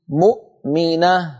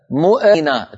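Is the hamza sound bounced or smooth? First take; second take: smooth; bounced. First: The hamza is said smoothly without bounce. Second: The hamza is given an echoing bounce. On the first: The speaker calls it right. "والهمزة ليست من حروف القلقلة" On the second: The speaker calls it wrong. "تجعل الهمزة مقلقلة"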